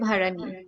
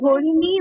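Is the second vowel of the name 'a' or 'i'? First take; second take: a; i. First: The name is said with an 'a' vowel: Bharani. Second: The name is said with an 'i' vowel: Bharini. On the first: This is the Hindi form of the name. "হিন্দিতে ভারানি" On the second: This is the Bengali form of the name. "বাংলায় ভরিণী"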